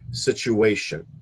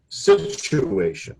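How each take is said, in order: First: The stress is on the third syllable. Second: The stress is not on the third syllable. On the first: The speaker calls it right. "the accepted way to pronounce it is the accent on the third syllable" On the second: The speaker calls it wrong. "because you had said situation"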